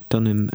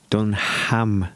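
First: The H in the middle is silent. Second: The H in the middle is pronounced. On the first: The speaker calls it right. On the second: The speaker calls it wrong. "Don't pronounce the H"

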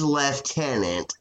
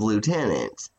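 First: It is said with a British pronunciation. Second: It is said with an American pronunciation. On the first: The speaker calls it wrong. "a culture that says lieutenant" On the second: The speaker calls it right. "instead of lieutenant"

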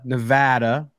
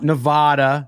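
First: The stressed vowel sounds like the a in bad. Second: The stressed vowel sounds like the a in father. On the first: The speaker calls it right. "you're welcome" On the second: The speaker calls it wrong. "Not Nevada, For those of you who are saying it wrong"

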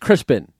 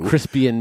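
First: The name is said with two syllables. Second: The name is said with three syllables. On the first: The speaker calls it right. "no, it's Crispin" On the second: The speaker calls it wrong. "he mispronounced St. Crispin on purpose"

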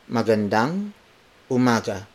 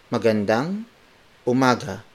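No difference in how they are said.

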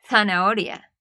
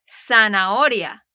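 First: Spain accent, starts with a th sound. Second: Latin American accent, starts with an s sound.

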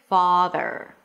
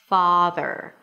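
Both takes have the same delivery.

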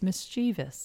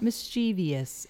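First: No extra 'ee' sound comes before the ending. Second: An extra 'ee' sound comes before the ending. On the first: The speaker calls it right. "it's mischievous" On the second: The speaker calls it wrong. "a tendency to want to put that extra E sound in it. So it's not mischievous"

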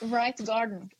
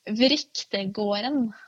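First: The name is said with simplified English-like sounds. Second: The name is said with full native Norwegian sounds.

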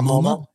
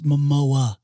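First: The name is said like the museum MoMA. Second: The name is said as Mo-mo-a. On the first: The speaker calls it wrong. "It's not the Museum of Modern Art. It's not MoMA" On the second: The speaker calls it right. "it's Momoa"

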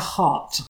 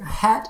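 First: The vowel is back, as in 'cot'. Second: The vowel is front, as in 'cat'. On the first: The speaker calls it wrong. "not hot" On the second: The speaker calls it right. "Hat shopping is how you pronounce that word"

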